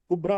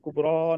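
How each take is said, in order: First: The final vowel is short. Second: The final vowel is long. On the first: The speaker calls it right. "कुबरा बोलेंगे इसको" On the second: The speaker calls it wrong. "कुबरा नहीं बोलेंगे"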